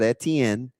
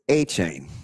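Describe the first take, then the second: First: The name ends with a 'ten' sound. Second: The name ends with a 'chain' sound. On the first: This is how others commonly said it. The speaker calls it wrong. "everybody said Etienne" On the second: This is the name's own pronunciation. The speaker calls it right. "It is A Chain"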